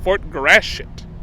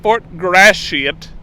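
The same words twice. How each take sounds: First: The name is said casually, with sounds run together. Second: The name is said carefully, every sound spelled out. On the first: This is how most people say it. "Everyone says Fort Gratiot" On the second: This avoids sounding like cussing. "I'm going to overpronounce it"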